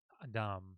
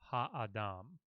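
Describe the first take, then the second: First: The word is rushed, the first syllable skimmed. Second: The word is slow, the first syllable full. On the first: The speaker calls it wrong. "like really quickly" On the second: The speaker calls it right. "pronounce the ha sound in full"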